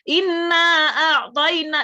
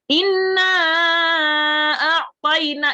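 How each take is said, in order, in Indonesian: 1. Vokal yang dipanjangkan ditahan selama dua ketukan. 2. Vokal yang dipanjangkan ditahan selama lima ketukan. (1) "yang dua inna a'tayna itu juga benar" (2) "saya buatnya yang lima ketukan"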